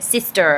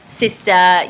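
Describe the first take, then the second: First: The word ends in a strong r-colored er. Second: The word ends in an unrounded uh vowel. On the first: This is the general North American way of saying it. The speaker calls it right. "I needed to make it sister ... the er sound is very prominent" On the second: This is the speaker's native Australian way of saying it. The speaker calls it wrong. "Australians use the schwa vowel ... you have the uh sound at the end"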